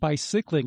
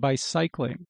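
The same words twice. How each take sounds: First: The second syllable has a short I vowel. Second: The second syllable has a long I vowel. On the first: "instead of bicycling" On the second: "you're doing bicycling"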